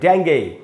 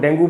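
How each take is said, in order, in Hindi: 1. शब्द ay ध्वनि पर खत्म होता है। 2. शब्द oo ध्वनि पर खत्म होता है। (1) "इसका एक और भी उच्चारण है" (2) "ये इसका एकदम ही गलत उच्चारण है"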